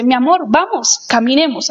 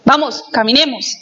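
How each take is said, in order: First: A loving ask to go for a walk; gentle invitation. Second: Brusque, clipped order; a blunt demand to start walking; curt command. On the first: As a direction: invite them warmly to walk. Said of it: "Es muy diferente a decirle". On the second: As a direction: order them to move, no warmth. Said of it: "Eso es totalmente diferente". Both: Shown as a demonstration.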